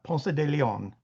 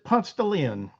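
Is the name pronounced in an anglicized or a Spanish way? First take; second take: Spanish; anglicized. First: The name gets a Spanish-style pronunciation. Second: The name gets an anglicized, Southern American pronunciation. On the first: This is how it would be said in Spain or Mexico. "not Ponce de Leon" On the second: This is how locals say the street name. "we pronounce it Ponce de Leon"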